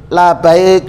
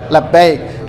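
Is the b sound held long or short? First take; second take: short; long. First: The b sound is short, after a separate la. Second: The b sound is held long and doubled. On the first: It means not good. The speaker calls it wrong. "Jangan sampai keliru. ... Tidak baik kan artinya" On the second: It is the proper response of answering the call. The speaker calls it right. "memang harus dilatih"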